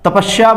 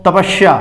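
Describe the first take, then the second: First: The middle consonant is an sh sound. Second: The same.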